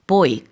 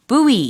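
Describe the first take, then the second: First: It is said the British way, like boy. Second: It is said the American way, unlike boy. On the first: "보통 영국에서는 boy. 그러니까 B O Y랑 발음이 비슷해요" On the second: "미국에서는 buoy 이러는 것 같아요"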